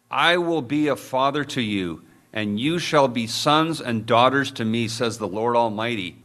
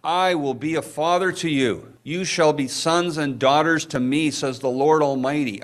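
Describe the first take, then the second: First: Said in the usual way. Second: Fervent repeat. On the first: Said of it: "Second Corinthians six eighteen". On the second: Real, not acted. Pastor re-reading the verse to his church, fervently. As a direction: ring it out to the room.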